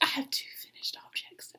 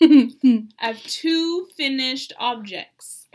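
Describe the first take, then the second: First: It is whispered. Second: It is said aloud in a clear voice.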